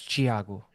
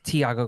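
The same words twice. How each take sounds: First: The name begins with a CH sound. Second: The name begins with a plain T sound. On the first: "if you're speaking Portuguese, it's Tiago, which is how it's supposed to be pronounced" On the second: "I just tell people it's Tiago because the H is silent"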